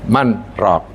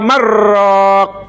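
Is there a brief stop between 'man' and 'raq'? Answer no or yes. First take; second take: yes; no. First: A brief stop separates man from raq. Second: The n merges straight into the r. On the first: It asks who will cure or carry the soul. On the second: It becomes one word meaning a cook of broth.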